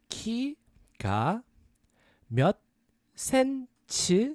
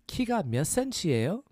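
First: It is said slowly. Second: It is said fast.

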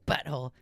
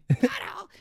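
First: It is said at a quieter volume. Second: It is said at a louder volume.

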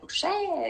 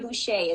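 First: The name is said with a French pronunciation. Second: The name is said with an English pronunciation. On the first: "Do I say it like Boucher? You know? French" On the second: "That's correct"

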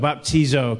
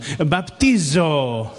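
First: It is said in the speaker's ordinary accent. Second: It is said in a put-on Mediterranean accent.

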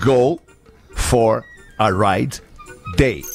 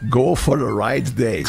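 First: It is said slowly. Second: It is said at normal speed.

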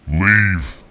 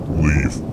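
First: It is screamed loudly and sharply. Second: It is said in a deep, low tone.

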